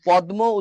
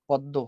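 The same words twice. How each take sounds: First: The d and m are both pronounced separately. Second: The m becomes d, giving a doubled d. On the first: The speaker calls it wrong. "এখন পদ্ম উচ্চারণ করাটা খুবই কঠিন" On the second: The speaker calls it right. "এখন হয়ে গেল প দয় দ"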